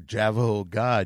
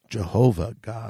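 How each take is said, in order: First: The first word is pronounced like 'Javajo'. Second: The first word is pronounced like 'Jehovah'. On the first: The speaker calls it wrong. "saying Javajo instead of Jehovah God" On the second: The speaker calls it right. "it is Jehovah God"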